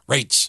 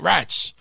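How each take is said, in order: First: The vowel is long, like in 'rates'. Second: The vowel is short, like in 'rats'. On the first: The speaker calls it right. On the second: The speaker calls it wrong. "Ain't Rats"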